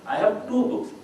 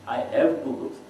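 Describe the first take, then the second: First: The stress falls on the word two. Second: The stress falls on the word have.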